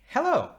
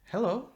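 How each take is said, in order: First: The greeting sounds warm and positive. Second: The greeting sounds flat and cold. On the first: "the first hello was very positive, very warm" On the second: "The second hello was, you know, pretty"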